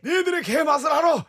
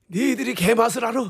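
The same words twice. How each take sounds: First: Put-on a smug older man teasing; Shin Goo ad line. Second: Put-on raised, lazy old actor line; looking down, a teasing old man; Shin Goo ad line. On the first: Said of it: "햄버거 가게 광고죠". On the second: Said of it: "이거 정말 많이 따라했었죠".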